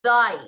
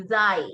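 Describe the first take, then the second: First: Thy said loud with tongue tip at teeth; teacher demo of thy; demo word thy. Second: Thy with tongue raised at upper teeth; teacher demo of thy; demo word thy. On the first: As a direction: model thy clearly. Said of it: "the example there is". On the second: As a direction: model thy again. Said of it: "the tip of your tongue is raised here". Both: Shown as a demonstration.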